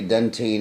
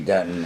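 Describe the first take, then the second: First: The word is said the Australian way. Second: The word is said the American way. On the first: "Australians say dentine" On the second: "Americans say dentin"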